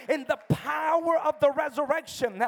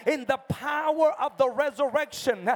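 The two takes are said the same way.

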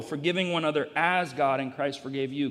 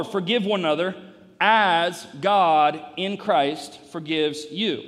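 First: Everyday pitch, with "as" picked out firmly; stress on AS. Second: Slow, forceful build to a punched "you"; stress on YOU. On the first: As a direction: lean on "as" midway through the verse. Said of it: "the correct place to emphasize it is?". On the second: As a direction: lean on "you" at the end, loud and deliberate. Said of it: "I'm emphasizing you". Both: Shown as a demonstration.

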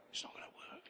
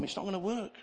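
First: Breathy whispered echo of the line; a whispered afterthought to the congregation. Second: Said in the usual way. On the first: Shown as a demonstration. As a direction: drop to a bare whisper, hushed.

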